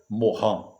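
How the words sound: The name is said with French sounds. "o cidadão é francês, a pronúncia correta seria Morin"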